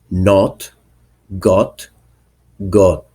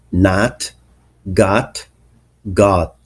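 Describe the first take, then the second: First: "not, got, got" with a rounded British O; British O vowel. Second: "nat, got, got" with an open American "ah" vowel. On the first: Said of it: "in British accent". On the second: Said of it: "pronounced in American accent". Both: Shown as a demonstration.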